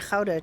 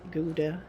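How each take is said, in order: First: Gouda is pronounced the Dutch way. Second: Gouda is pronounced the American way.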